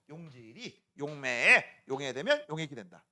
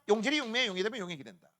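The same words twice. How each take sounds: First: The sentence is said at a normal pace. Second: The sentence is said quickly.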